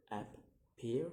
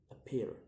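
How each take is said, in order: First: "appear" split in two, second syllable rising; second-syllable stress. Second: Said in the usual way. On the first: Shown as a demonstration. Teacher demonstrating stress, "appear" in two rising beats. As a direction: break "appear" apart and lift its last syllable. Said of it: "put on the second". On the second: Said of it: "the word".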